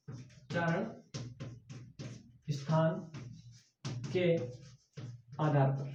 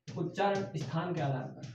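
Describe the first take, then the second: First: One word at a time, much softer, long gaps; "उच्चारण", "स्थान", "के", "आधार पर" each said separately, quiet and slow; slow dictation. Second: Said in the usual way. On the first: Shown as a demonstration. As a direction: read it out for students to write down.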